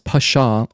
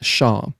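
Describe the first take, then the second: First: A p sound and short vowel come before sh. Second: The word starts directly with the sh sound. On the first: "It's pronounced that as Pasha" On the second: "or just Shaw. So yeah, it's a it's a silent P"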